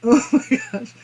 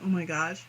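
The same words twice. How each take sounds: First: Higher, laughing oh my gosh; amused exclamation. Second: Softer, lower, spent oh my gosh; quiet sigh. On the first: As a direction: blurt it out mid-laugh. Cracking up at chat. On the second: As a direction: let it fall out tired and hushed. Worn out after laughing. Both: Real, not acted.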